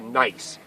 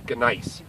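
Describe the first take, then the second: First: The initial G sound is silent. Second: The initial G sound is pronounced. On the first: This is the English way. "we changed it to nice" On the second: This is the German way. "in German they actually pronounce the G"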